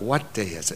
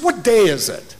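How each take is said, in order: First: Much softer and lower, as if thinking; quiet inner thought. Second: Said in the usual way. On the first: Retold or imitated. Preacher recalling his own silent reaction in the elevator, quiet inner thought. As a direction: recall a private thought under the voice. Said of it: "I thought". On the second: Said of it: "he said".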